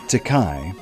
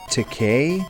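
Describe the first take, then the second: First: The last syllable sounds like 'kai'. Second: The last syllable sounds like 'kay'. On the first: This is the speaker's own natural habit. "I always pronounced it Takai, like naturally" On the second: This is how someone else says it. "William Shatner kept saying Takei"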